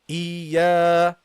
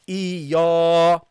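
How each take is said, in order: First: The long vowel is light, with spread lips. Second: The long vowel is thick and heavy. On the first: The speaker calls it right. "so you say iya, iya. You see, the lips are smile" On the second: The speaker calls it wrong. "Don't make this alif heavy. Don't say iya"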